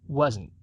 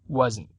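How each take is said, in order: No difference in how they are said.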